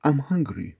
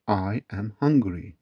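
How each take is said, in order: First: Said in the usual way. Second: "I am hungry" slowly, word by word; slow teaching model. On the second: Shown as a demonstration. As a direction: spell out "I am hungry" slowly for learners. Teacher gives slow full form again. ("I am hungry" yavaş, tane tane)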